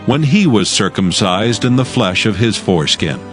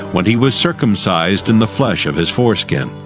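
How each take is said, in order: Both takes have the same delivery.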